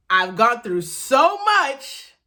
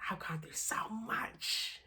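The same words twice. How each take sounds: First: Loud, slow, each word weighed; firm self-affirmation. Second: Breathless whisper to yourself; whispered self-affirmation. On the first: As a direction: tell yourself you made it. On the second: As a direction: hush it like a secret promise. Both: Real, not acted. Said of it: "I have to say it so I believe it".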